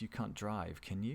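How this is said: The tag question sounds unsure and genuinely questioning. The speaker is not sure of the fact. "so if you're less certain"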